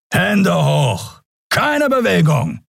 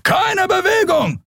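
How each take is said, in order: First: High, firm commands; guard commands. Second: Very high, slow yelled command; shouted order. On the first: Peacekeepers surrounding the pair, barking commands. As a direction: order them to freeze. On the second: A guard screaming at the fugitives, slow high shout. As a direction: freeze them with a shout. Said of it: "schrie ein Weißmantel". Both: Acted.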